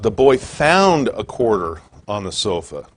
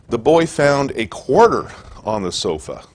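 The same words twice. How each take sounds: First: The word found is stressed. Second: The word quarter is stressed.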